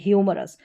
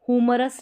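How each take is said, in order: First: The word begins with a 'hyoo' sound. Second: The word begins with a plain 'hoo' sound. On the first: The speaker calls it right. "इसको ह्यूमरस पढ़ेंगे" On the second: The speaker calls it wrong. "हुमरस नहीं पढ़ेंगे"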